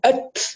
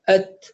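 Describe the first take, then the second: First: The t ends with a long s-like hiss. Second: The t ends with a light, short release. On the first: The speaker calls it wrong. "المبالغة فيها أت كأنها حرف سين" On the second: The speaker calls it right. "ضغط معتدل"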